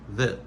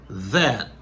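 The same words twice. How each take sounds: First: The word is pronounced in a reduced form. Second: The word is pronounced fully and carefully. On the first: "ça devient that ... ça c'est réduction" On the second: "ça c'est prononciation normale"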